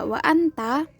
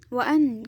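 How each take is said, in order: First: The phrase is said in full. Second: The phrase is said with its last syllable dropped. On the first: This is the standard form. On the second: This is the colloquial form.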